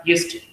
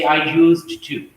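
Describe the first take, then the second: First: "used to" run together as "yusta"; fuse used to into one short word; fused words. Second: "I used to" slowly, each word apart; separated words. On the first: Teacher showing quick native speech, fused words. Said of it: "it will become like". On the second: Teacher showing the phrase before fusing, separated words. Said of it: "their words fuse together". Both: Shown as a demonstration.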